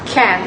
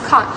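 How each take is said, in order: First: "can" for can't, with a short front A; American-style "can", vowel as in cat. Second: "can't" with a long back AH; British-style "can't", vowel as in father. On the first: Student comparing accents, "can" with the American short front vowel. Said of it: "uses the short front vowel". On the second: Student comparing accents, "can't" with the British long back vowel. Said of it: "featuring a long back vowel". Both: Shown as a demonstration.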